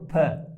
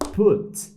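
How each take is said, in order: First: The vowel is an open 'a'-like sound. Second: The vowel is not an 'a'-like sound. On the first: The speaker calls it wrong. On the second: The speaker calls it right.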